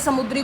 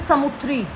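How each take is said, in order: First: The word is said with native Hindi sounds. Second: The word is said with altered, foreign-sounding sounds. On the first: "ये समुद्री को" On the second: "समुद्री नहीं बोलना आता था इनको, ये समुद्री को बोलते थे समुद्री"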